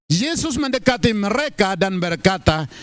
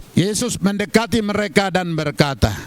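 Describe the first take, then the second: The two takes are said the same way.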